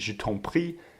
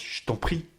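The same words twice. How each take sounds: First: The vowel of 'je' is clearly pronounced. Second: The vowel of 'je' is dropped.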